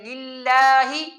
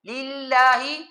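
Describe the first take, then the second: First: The lips are pulled wide to the sides. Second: The same.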